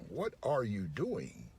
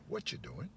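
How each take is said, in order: First: Each word is said fully and separately. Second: The words blur together with a ch sound. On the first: The listener is in trouble for doing something wrong. "Unless they're trying to communicate that you're in trouble" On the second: It is a friendly, casual question. "There's a ch in there"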